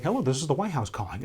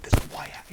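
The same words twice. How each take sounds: First: Said in the usual way. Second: Awed whisper. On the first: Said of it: "I'd be like". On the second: Retold or imitated. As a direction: whisper it the way parents react in disbelief. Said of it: "you hear, like".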